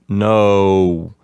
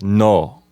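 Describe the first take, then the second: First: The vowel glides as the lips close. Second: The vowel stays steady with lips open. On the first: "we tend to close our lips like no" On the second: "leave your lips open like no"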